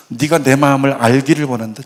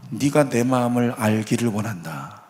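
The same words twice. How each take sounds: First: Said in the usual way. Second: Soft, hushed and lower, almost tender; a quiet divine whisper-like reassurance; gentle voice of God. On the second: Retold or imitated. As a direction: speak it low as a father to his daughter. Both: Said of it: "하나님이 이렇게 말씀하셨대요".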